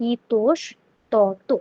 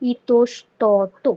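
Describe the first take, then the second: The two takes are said the same way.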